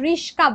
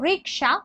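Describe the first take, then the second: First: The middle consonants are spoken as 'sk'. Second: The middle consonants are spoken as 'ks'. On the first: This is the everyday changed form. "রিস্কা বলি" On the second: This is the original form of the word. "আমরা উচ্চারণ করতে পারি না"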